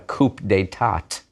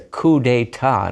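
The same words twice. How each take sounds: First: The silent final consonants are pronounced aloud. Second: The silent final consonants are left unpronounced. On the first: The speaker calls it wrong. "not a coup d'etat" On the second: The speaker calls it right. "And it's a coup d'etat"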